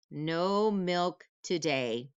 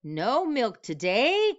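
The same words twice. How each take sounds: First: Said in the usual way. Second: High, slow disbelieving question; can't believe the note; cried out in dismay. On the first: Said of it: "reading cows' strike note". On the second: Acted. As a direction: farmer cries out in shock at the strike. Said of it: "cried Farmer Brown".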